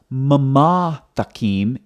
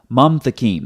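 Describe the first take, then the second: First: A vowel is sounded between the two m sounds. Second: No vowel is sounded between the two m sounds. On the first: The speaker calls it wrong. "So it's not mama takim" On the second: The speaker calls it right. "it's mam takim"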